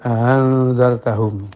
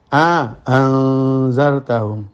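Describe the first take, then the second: First: The second glottal stop is softened. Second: A lengthened vowel separates the two glottal stops. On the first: "hamzah kedua dibaca tashil" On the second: "memberikan jarak antara hamzah pertama dengan hamzah kedua dengan dikasih mat"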